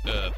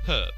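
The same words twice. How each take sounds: First: The word starts with a silent H. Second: The word starts with a pronounced H. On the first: This is the American way of saying it. The speaker calls it wrong. "I have heard that in America, it is not... and you say it herb" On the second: This is the British way of saying it. The speaker calls it right. "I'll be saying herb because that's how I've been brought up saying it"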